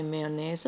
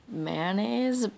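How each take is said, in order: First: "mayonnaise" in three syllables, may-uh-naise. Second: "mayonnaise" squeezed into two syllables, man-aise. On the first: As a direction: say "mayonnaise" fully as may-uh-naise, her German way. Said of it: "I say mayonnaise, the German way". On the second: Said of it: "I'm supposed to say". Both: Shown as a demonstration.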